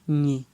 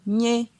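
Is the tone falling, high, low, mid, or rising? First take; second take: low; mid. First: The syllable is said on a low tone. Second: The syllable is said on a mid tone. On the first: "Ton bas" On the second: "Ton euh, moyen"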